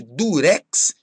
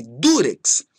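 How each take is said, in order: First: "durex" stressed on REX; stress on last syllable. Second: "durex" stressed on DU; stress on first syllable. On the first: Teacher showing a form that doesn't exist, "durex" stressed on REX. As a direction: wrongly hit REX in "durex". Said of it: "não existe durex". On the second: Teacher giving the only valid form, "durex" stressed on DU. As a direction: hit DU in "durex". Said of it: "existe só". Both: Shown as a demonstration.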